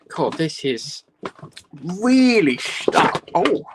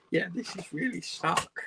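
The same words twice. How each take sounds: First: Straining. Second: Said in the usual way. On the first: Real, not acted. Struggling to open packaging.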